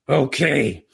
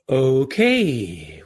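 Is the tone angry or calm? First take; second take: angry; calm. First: The voice sounds sharp and angry. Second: The voice sounds calm and light. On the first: The speaker is annoyed and scolding. The speaker calls it wrong. "the message to the audience is completely different" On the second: The speaker is curious, not upset. The speaker calls it right. "that's what I said because I had trained myself in situations"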